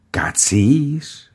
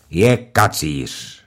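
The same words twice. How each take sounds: First: High, disbelieving question; wife echoing the accusation, aghast; surprised echo. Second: Said in the usual way. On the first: Acted. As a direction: repeat the word in shock.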